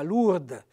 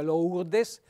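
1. Il nome si dice in forma dialettale abbreviata. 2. Il nome si dice nella forma standard completa. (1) "che diventa Lourdes" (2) "pensate a Lourdes"

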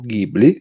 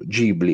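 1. Ghibli si pronuncia alla europea. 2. Ghibli si pronuncia alla giapponese. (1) "alla europea" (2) "pronuncia giapponese"

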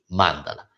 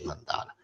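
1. L'accento è sulla prima sillaba. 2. L'accento è sulla seconda sillaba. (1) "si dice mandala, con l'accento sulla prima A" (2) "non si dice mandala"

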